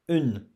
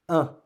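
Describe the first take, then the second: First: It ends with a clear N consonant sound. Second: It ends in a nasal vowel, no N consonant. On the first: The speaker calls it wrong. "Don't pronounce une" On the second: The speaker calls it right. "The sound of this is un"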